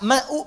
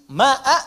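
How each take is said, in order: First: The word ends in the vowel u. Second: The word ends in the vowel a. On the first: The word is the subject. "pakai u" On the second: The word is the object of a verb. "pakai a"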